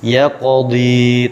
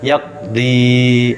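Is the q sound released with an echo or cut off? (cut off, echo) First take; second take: echo; cut off. First: The q sound is released with a bouncing echo. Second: The q sound is cut off without an echo. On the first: The speaker calls it right. "tetap memantul" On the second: The speaker calls it wrong.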